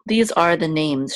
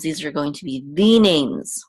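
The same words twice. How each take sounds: First: Said in the usual way. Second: THE said as a long, raised "thee" before names; stress on THE. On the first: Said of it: "these aren't just random names". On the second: Shown as a demonstration. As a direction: punch THE, pronounced thee, to mean specific ones. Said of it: "there's an implied the".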